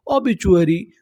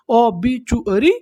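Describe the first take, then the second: First: Said in the usual way. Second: ओबीचुअरी drawn out slowly with a rising end; slow model reading. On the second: Shown as a demonstration. Teacher repeats the word slowly for the class. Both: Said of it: "English में क्या बोलते हैं".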